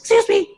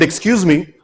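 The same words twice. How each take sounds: First: The voice is high and squeaky. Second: The voice is deep and husky. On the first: He actually sounded nervous and timid. "I sounded like a rat squeaking" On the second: He imagined he sounded confident. "I thought in my husky voice"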